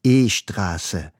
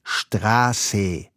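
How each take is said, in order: First: E-Straße said with a short e before the S, as e-schtrasse; Farsi-style E-Straße. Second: Straße starting straight on the schtr, no vowel before it; correct German Straße. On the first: Student repeats the street name to the policeman, E-Straße with a vowel before the S. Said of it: "Ich wiederhole". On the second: Policeman corrects the student, Straße with no vowel before it. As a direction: say Straße cleanly, like a native. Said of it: "Der Polizist antwortet". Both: Retold or imitated.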